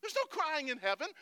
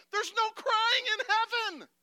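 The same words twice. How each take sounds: First: Loud, higher scolding, building; mock coach outburst. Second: Very high, drawn-out yell; mock coach scream. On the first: Preacher parodies coach for heaven, loud scolding. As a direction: bellow it like the outraged coach. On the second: Preacher parodies coach for heaven, screaming it out. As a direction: scream it slowly at full force.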